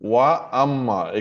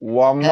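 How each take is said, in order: First: A clear glottal stop separates wa and amma. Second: Wa runs straight into amma without a stop. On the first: The speaker calls it right. "আলিফ বা হামজার উচ্চারণটা ক্লিয়ার হওয়া দরকার" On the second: The speaker calls it wrong. "ওয়াম্মা হলে কিন্তু এটা খুব বড় ভুল একটা"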